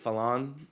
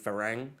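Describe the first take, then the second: First: It begins with an L sound and ends in n. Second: It begins with an R sound and ends in ng. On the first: This is how local people say it. "They pronounce it Falan" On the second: This is the word's proper form. "but it's really farang"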